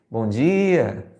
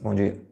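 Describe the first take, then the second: First: It is said warmly, with a smile. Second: It is said curtly and dismissively.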